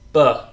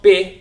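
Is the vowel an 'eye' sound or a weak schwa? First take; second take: schwa; eye. First: The vowel is a weak schwa. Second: The vowel sounds like 'eye'. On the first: The speaker calls it right. "it's b" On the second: The speaker calls it wrong. "this is not bi"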